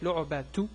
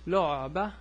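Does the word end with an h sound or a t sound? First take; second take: t sound; h sound. First: The word ends in a t sound. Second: The word ends in a soft h sound. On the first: The speaker continues to the next word. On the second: The speaker stops after this word.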